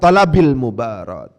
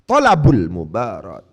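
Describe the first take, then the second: First: The first word ends in an i vowel. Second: The first word ends in a u vowel. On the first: The speaker calls it wrong. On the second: The speaker calls it right. "harus dibaca rofa"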